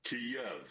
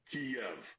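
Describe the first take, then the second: First: "Kyiv" said the Russian way, as two syllables with the Y opening the second: ki-YEV; Russian pronunciation. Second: "Kiev" said with the Y closing the first syllable: KIY-ev; Ukrainian approximation. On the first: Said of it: "the Russian pronunciation is". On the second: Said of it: "The Ukrainian closest approximation". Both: Shown as a demonstration.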